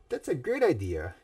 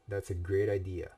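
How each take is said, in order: First: It is said with the intended warm feeling. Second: It is read plainly, without the intended feeling. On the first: The speaker calls it right. "that's how it was supposed to be" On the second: The speaker calls it wrong. "I didn't read that with the right tone"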